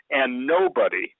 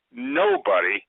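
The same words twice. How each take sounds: First: Said in the usual way. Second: Nobody cried out much higher; stress on nobody. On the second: Real, not acted. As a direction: fling nobody up high in pitch. Repeats word with big emphasis.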